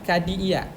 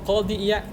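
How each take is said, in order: First: It starts with a plain, front k sound. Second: It starts with a deep, back-of-throat q sound. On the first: The speaker calls it wrong. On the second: The speaker calls it right.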